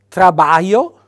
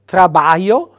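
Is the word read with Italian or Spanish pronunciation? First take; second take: Italian; Italian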